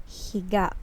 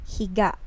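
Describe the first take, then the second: Both takes have the same delivery.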